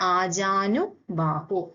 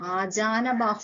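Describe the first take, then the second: First: The vowel before 'bahu' is 'u'. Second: The vowel before 'bahu' is 'a'. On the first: The speaker calls it right. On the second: The speaker calls it wrong.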